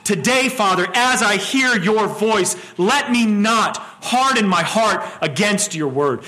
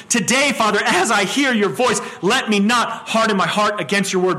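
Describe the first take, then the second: First: Slow prayer. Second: Prayer at normal pace. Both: Shown as a demonstration. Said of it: "We would do well to say that to ourselves every single morning".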